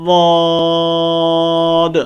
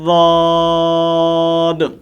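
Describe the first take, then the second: First: It begins with a heavy, emphatic d sound. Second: It begins with a heavy, emphatic d sound.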